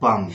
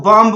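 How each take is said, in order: First: बम ending on m; correct silent B. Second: बम्ब with the b sounded; common wrong pronunciation. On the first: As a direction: say बम with no final b. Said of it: "सही उच्चारण होगा". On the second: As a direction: say बम्ब ending in audible b. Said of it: "बहुत सारे लोग". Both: Shown as a demonstration.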